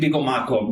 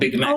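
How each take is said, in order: First: It is said with added vowels, Japanese style. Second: It is said plainly, without added vowels. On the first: This is how people in Japan say it. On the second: This is the original English name.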